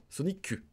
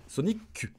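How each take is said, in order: Both takes have the same delivery.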